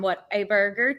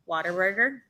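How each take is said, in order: First: The three words are said separately and clearly. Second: The words run together quickly in a twang.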